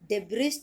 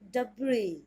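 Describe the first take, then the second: First: The final s sound is pronounced. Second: The final s sound is silent. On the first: The speaker calls it wrong. "डिब्रिज तो इसको बोलेंगे नहीं" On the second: The speaker calls it right. "एस तो होगा आपका silent"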